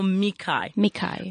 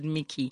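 First: The name ends in an 'eye' sound. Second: The name ends in an 'ee' sound. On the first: It is how the family says it. The speaker calls it right. "So Mikai" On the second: It is the usual American way of saying it. The speaker calls it wrong. "The American way they would pronounce it"

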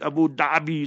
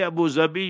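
First: The second word begins with a th-like sound. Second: The second word begins with a z sound. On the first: The speaker calls it wrong. "So let's use your term" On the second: The speaker calls it right. "That's the proper pronunciation"

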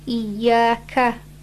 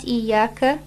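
First: The final ka is said with an open mouth. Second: The final ka is said with a closed mouth. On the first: The speaker calls it right. "Can you hear the difference?" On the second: The speaker calls it wrong. "Open your mouth on the ka, not iyaka"

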